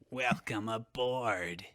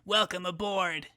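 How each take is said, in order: First: It is said in a menacing, threatening tone. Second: It is said in a neutral, non-threatening tone.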